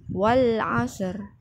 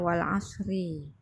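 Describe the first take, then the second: First: The phrase stops on the final consonant. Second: The phrase ends with an added vowel. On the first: The speaker calls it right. "bacanya itu di diwakafkan" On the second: The speaker calls it wrong. "jangan diulang lagi bacanya wal asri"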